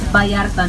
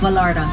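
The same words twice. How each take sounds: First: The name is pronounced with Spanish sounds. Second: The name is pronounced with English sounds. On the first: The speaker calls it right. "it's Vallarta" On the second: The speaker calls it wrong. "not Vallarta. Get it right"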